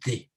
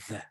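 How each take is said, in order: First: The word is said with a full, strong vowel. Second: The word is said with a reduced, weak vowel. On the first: "strong pronunciation" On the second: "in the weak form"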